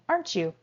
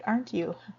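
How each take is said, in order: First: The T and Y blend into ch. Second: The T and Y stay separate sounds. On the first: "you'll hear Americans saying" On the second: "It's perfectly okay to say"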